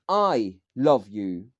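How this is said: The stress is on "I".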